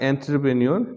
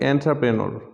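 First: The ending is said as 'nyor'. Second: The ending is said as 'ner'. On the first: The speaker calls it wrong. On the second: The speaker calls it right.

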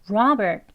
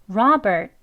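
Both takes have the same delivery.

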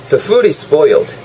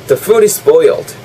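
The two takes are said the same way.

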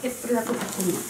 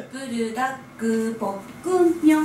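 First: The name is said quickly. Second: The name is said slowly, almost melodically.

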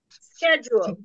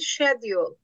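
First: The word is said with an American pronunciation. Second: The word is said with a British pronunciation. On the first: "Bu bakın bu Amerikan sesletimi, Amerikan İngilizcesi" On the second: "İngilizce'de İngilizce"

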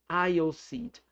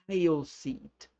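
Both takes have the same delivery.

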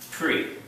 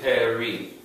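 First: The p runs straight into the r. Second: A short e vowel separates p and r. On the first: "the same timing as free" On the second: "But it's really Peri"

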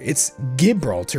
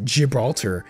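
First: It begins with a hard G sound. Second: It begins with a J sound. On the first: "You have to use it with a G, like the G sound, as in like goose" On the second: "you have to say G with like a J sound"

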